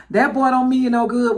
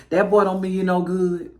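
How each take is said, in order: First: Louder, quicker daddy warning; raised-voice mock fatherly warning; disapproving daddy. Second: Low, wary daddy voice; lightly voiced suspicious father; disapproving daddy. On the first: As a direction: imitate a daddy putting his foot down. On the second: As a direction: mutedly imitate a daddy distrusting the boy. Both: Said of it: "the daddy be, like, side-eyeing the boy".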